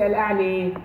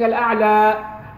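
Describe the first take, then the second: First: The final vowel is a clear i sound. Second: The final vowel is an open a sound. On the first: "some others would say al-a'li, because it's actually written like a ya" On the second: "instead of saying al-a'la"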